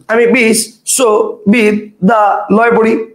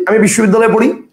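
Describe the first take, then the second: First: বিশ্ববিদ্যালয় slowly chopped into five separate pieces; broken into syllables. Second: Said in the usual way. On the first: Shown as a demonstration. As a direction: pause after each piece: bish, sho, bid, da, loy. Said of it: "আপনি কোথায় পড়েন". (বিশ্ববিদ্যালয় ভেঙে ভেঙে, খুব ধীরে) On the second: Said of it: "একবারে বলেন না যে".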